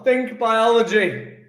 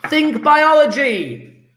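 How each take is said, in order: First: Said in the usual way. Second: Biology drawn out high and slow; hint word stressed. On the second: Shown as a demonstration. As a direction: lean hard on biology like a clue. Teacher hinting the answer to class.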